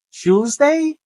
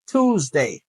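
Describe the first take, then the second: First: Tuesday starting like "chews", pitched up; first pronunciation variant. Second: Tuesday starting with a plain "too"; second pronunciation variant. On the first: Teacher offering two correct options, first variant of Tuesday. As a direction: say Tuesday as "CHEWS-day", left rising. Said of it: "On est capable de dire choose ou bien on dit". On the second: Teacher offering two correct options, second variant of Tuesday. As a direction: say Tuesday as "TOOZ-day", slow and falling. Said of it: "ou bien on dit Tuesday". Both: Shown as a demonstration.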